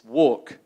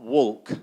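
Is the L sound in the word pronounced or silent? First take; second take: silent; pronounced. First: The L sound is silent in the word. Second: The L sound is pronounced in the word. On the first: The speaker calls it right. "Which letter is silent? The L" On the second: The speaker calls it wrong. "it's not walk"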